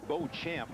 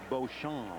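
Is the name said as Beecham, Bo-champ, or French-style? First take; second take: Bo-champ; French-style. First: The name is said with an English Bo-champ sound. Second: The name is said with a French pronunciation. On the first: It sounds athletic. "I say Beauchamp. That sounds athletic" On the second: It is meant to charm women. "I kind of like the French pronunciation"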